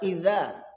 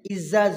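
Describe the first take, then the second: First: The first consonant is a soft th sound. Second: The first consonant is a plain z sound. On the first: The speaker calls it right. "padahal iza" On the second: The speaker calls it wrong. "logat saya logat Medan atau logat Sumatera, ... kalau membaca za itu jadi za"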